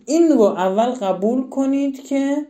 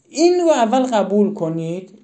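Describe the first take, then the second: First: «این» stressed and raised, the rest said slowly and deliberately; slow emphatic repeat. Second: Said in the usual way. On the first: Shown as a demonstration. Teacher pressing parents to accept the point, slow and emphatic. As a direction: lean on «این» and slow the whole line down. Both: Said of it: "teacher repeats key point".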